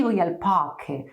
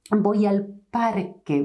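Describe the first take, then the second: First: Parque with the r almost gone; weak English r. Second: Parque with a distinct tapped r; clear Spanish r. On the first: Teacher showing the wrong, weak r. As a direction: parque with a faint r. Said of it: "Don't say". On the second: Teacher modelling a clear r for learners. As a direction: tap the r in parque. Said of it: "very clear sound". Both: Shown as a demonstration.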